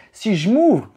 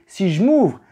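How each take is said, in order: Both takes have the same delivery.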